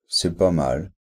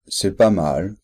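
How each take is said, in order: First: The tone sounds dismissive and negative. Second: The tone sounds dismissive and negative.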